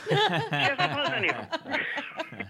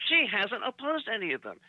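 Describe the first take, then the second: First: Laughing. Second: Said in the usual way. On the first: Real, not acted. Punchline laughed out.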